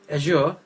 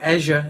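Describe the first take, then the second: First: It is said with a non-American pronunciation. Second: It is said with an American pronunciation.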